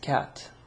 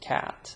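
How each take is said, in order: First: It is said in an Arabic accent, lighter k. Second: It is said in an American accent, heavier k. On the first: "with my Arabic accent and say cat" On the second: "like the American accent and say cat"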